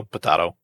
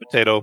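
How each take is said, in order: First: "potato" with a broad AH in the middle; alternate pronunciation. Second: "Potato" with a long AY in the middle; usual pronunciation. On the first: Co-host teasing over word choice, "potato" said with an AH. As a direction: say "potato" as po-TAH-to. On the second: Co-host teasing over word choice, "Potato" said with an AY. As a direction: say "Potato" as po-TAY-to. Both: Shown as a demonstration. Saying idiom with contrasting pronunciations.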